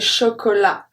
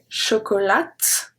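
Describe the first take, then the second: First: The final T is silent. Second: The final T is pronounced. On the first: The speaker calls it right. "I say chocolat. So the T" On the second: The speaker calls it wrong. "So I don't say chocolat"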